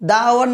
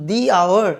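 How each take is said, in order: First: The article is said with a short 'uh' vowel. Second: The article is said with a long 'ee' vowel. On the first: The speaker calls it wrong. "দা hour না" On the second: The speaker calls it right. "কিন্তু দি hour"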